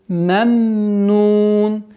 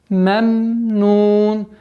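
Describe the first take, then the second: Both takes have the same delivery.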